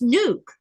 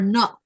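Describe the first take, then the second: First: The vowel in the word is long. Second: The vowel in the word is short. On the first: The speaker calls it right. "It's nuke" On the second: The speaker calls it wrong. "they'll make that short sound"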